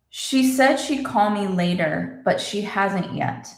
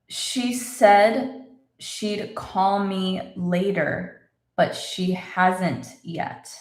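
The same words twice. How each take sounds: First: The sentence is spoken at normal, faster speed. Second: The sentence is spoken slowly and carefully.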